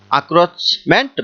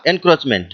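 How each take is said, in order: First: আক্রোচমেন্ট with "ak" at the start, no n; a- pronunciation. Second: এনক্রোচমেন্ট with "en" at the start; en- pronunciation. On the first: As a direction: begin আক্রোচমেন্ট on an open "a". (আক্রোচমেন্ট, প্রথমে "আ", ন ছাড়া) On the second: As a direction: begin এনক্রোচমেন্ট with the n sounded. (এনক্রোচমেন্ট, প্রথমে "এন" উচ্চারণ) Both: Shown as a demonstration. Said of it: "এটাকে উচ্চারণ করতে পারি".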